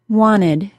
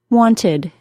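First: The T sound after the N is dropped. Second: The T sound after the N is pronounced.

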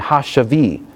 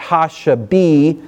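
First: The middle consonant is a soft B sound. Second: The middle consonant is said hard and full. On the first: The speaker calls it right. "But more sort of a soft B" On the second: The speaker calls it wrong. "So it's not ha-shavi"

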